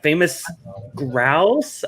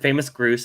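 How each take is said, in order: First: The second word has an 'ow' vowel. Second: The second word has an 'oo' vowel. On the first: The speaker calls it right. "I'm pronouncing it right, right?" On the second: The speaker calls it wrong. "people make fun of me that to this day I said famous Groose"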